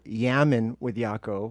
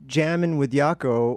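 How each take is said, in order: First: The first word starts with a Y sound. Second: The first word starts with a J sound.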